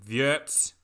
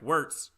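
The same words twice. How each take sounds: First: It is said with a German accent. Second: It is said with an American accent.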